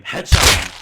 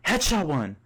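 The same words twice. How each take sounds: First: Much louder blasted yell; scream. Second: High, loud triumphant yell; scream. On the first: Gamer screams his headshot callout again, blasting loud. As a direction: blow out the mic yelling it. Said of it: "you then scream". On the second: Gamer calls out his headshot to the boys, loud high yell. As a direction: shout the kill call. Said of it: "You then scream". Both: Acted.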